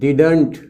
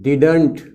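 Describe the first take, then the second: First: The middle d sound is pronounced. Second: The same.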